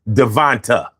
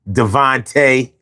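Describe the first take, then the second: First: The name ends in an 'ah' sound. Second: The name ends in an 'ay' sound. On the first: The speaker calls it wrong. "A I is going to pronounce that Devonta" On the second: The speaker calls it right. "a name with the A on the end of it"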